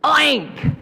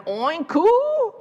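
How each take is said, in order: First: One high, loud, clean oink; successful pig oink. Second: High oink with a cooing moo tail; nearly oink, then slide up into oo; pig's failed oink. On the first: Storyteller as pig who finally went oink, high triumphant squeal. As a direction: burst out a triumphant short oink. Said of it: "the pig finally went, oink". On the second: Storyteller as pig trying again, high muddled oink-moo. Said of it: "And again". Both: A narrator's reading.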